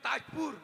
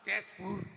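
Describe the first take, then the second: First: The first vowel sounds like 'a'. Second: The first vowel sounds like 'e'. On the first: This is how other people say the name. "পুলিয়েতে বলে তাজপুর" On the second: This is how Santals say the name. "আমরা সাতালতে বলে তেজপুর"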